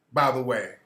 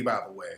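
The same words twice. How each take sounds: First: Said in the usual way. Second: Much lower, softer throwaway aside; a low muttered by the way; quiet aside. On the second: Real, not acted. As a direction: drop it under your breath. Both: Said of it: "He always caping for his community".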